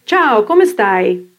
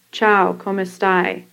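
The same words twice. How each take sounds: First: "Ciao, come stai?" melodic, with "Ciao" and "stai" drawn long; proper long Italian vowels. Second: American-accented "Ciao, come stai?" with the vowels cut off; flat American reading of "Ciao, come stai?", no Italian melody; typical American accent. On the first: Teacher showing proper Italian, long melodic vowels in "Ciao, come stai?". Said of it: "with the proper long vowels in Italian". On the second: Teacher imitating an American unused to Italian, American accent on "Ciao, come stai?". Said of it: "the way a typical American would say it". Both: Shown as a demonstration.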